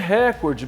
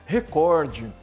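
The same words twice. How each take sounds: First: The stress is on the first syllable. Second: The stress is on the second syllable. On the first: The speaker calls it wrong. "Não é recorde, porque se fosse recorde teria acento como mística" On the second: The speaker calls it right. "a forte é a penúltima... cor é a sílaba forte"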